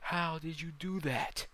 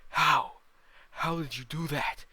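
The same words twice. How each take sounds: First: Slow, high, loud yell; drawn-out, raised shout. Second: Very loud, high shout; explosive roar of a beaten demon; demon bellow. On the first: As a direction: yell it out in disbelief. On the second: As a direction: bellow in outraged disbelief. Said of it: "the demon bellows". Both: Acted.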